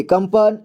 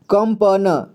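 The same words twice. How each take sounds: First: Said in the usual way. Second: कंपन slowly split as "kam-pa-na"; कंपन with final न voiced as "na"; sounded out. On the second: Shown as a demonstration. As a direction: spell out कंपन letter by letter, slowly. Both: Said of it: "इसे पढ़ेंगे कंपन".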